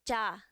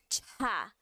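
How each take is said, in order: First: The consonant is released without a puff of air. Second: The consonant is released with a puff of air. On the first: The speaker calls it right. "vai ser já, né? Sem o ar" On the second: The speaker calls it wrong. "não vai ser tchá"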